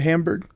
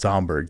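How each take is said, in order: First: Hamburg is said with an English pronunciation. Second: Hamburg is said with a German pronunciation. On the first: The speaker calls it wrong. "I mispronounced that too" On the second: The speaker calls it right. "It's Hamburg"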